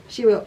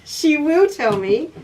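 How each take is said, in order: First: Said in the usual way. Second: Slow, drawn-out, higher and louder, stressing will; emphatic will. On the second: Real, not acted. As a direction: She WILL tell me, said slowly and loudly with a rise. Agrees she'll be told off.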